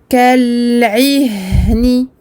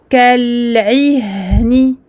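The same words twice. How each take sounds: Both takes have the same delivery.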